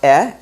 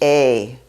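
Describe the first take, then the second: First: The vowel is a short open 'eh'. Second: The vowel is a long 'ay' sound. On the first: This is the everyday spoken pronunciation. "that's the modern Hebrew, the Israeli pronunciation" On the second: This is the traditional reading pronunciation. "if you were reading from the Torah, the traditional pronunciation of this would be a"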